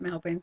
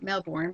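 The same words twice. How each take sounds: First: The name is pronounced the local way. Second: The name is pronounced just as it is spelled. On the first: The speaker calls it right. "you pronounce it Melbourne" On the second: The speaker calls it wrong. "call it Melbourne because it's spelled like that"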